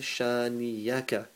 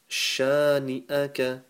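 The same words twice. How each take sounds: First: The middle consonant is a y sound. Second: The middle consonant is a glottal stop. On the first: The speaker calls it wrong. "Very common mistake, people say shani'aka" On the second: The speaker calls it right. "It's not a ya, it's a hamza a sound"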